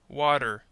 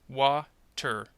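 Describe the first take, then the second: First: The middle T is a quick D-like flap. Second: The middle T is a clear, stopped T. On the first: "when you use the flap T sound" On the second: "you have to stop the preceding vowel sound"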